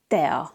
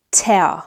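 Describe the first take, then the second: First: "tea" as teh-aw with an unbreathed t; soft Hungarian T. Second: "tea" as teh-aw with a puffed English t; wrong breathy T. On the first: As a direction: keep the t in "tea" soft, no puff. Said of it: "not breathy like in English". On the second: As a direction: aspirate the t in Hungarian "tea". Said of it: "I'm not saying". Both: Shown as a demonstration.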